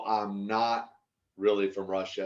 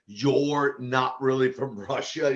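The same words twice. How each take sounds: First: Said in the usual way. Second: Lightly imitated broken Russian accent, slow; slow mock Russian accent, lightly done. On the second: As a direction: retell it in halting Russian-accented English. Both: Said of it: "she had kind of this broken accent".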